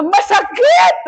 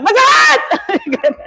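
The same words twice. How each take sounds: First: High-pitched mock scream; retold pain shout. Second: High, long wail of pain, half laughing; drawn-out mock scream. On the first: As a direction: cry out as if cut, without full volume. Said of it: "sumigaw po ako na". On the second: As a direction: stretch out the pained shout, hammed up. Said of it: "Hindi ganyan sa akin".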